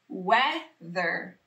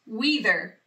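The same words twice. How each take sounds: First: The first vowel sounds like a short eh. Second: The first vowel sounds like a long ee. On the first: The speaker calls it right. "This vowel team can work together to say eh" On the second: The speaker calls it wrong. "That doesn't sound like a word I know either"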